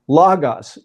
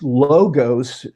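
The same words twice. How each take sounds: First: Both O vowels are short. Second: Both O vowels are long. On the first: The speaker calls it right. "proper pronunciation ... is logos" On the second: The speaker calls it wrong. "if this was pronounced logos, it would have two omegas in it"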